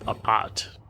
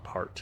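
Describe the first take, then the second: First: The word is said without an R sound. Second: The word is said with an R sound. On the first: "they don't pronounce the R like we did" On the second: "not a part"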